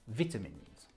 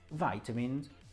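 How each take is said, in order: First: It is said with a British pronunciation. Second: It is said with an American pronunciation.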